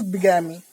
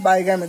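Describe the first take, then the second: First: Bigamy with a short i at the start, BIG-a-mi; correct pronunciation. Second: Bigamy said as bye-GAM-ee, with a long i; wrong pronunciation. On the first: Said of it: "this is bigamy". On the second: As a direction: say bigamy the mistaken way, starting like bye. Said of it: "this is not bigamy". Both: Shown as a demonstration.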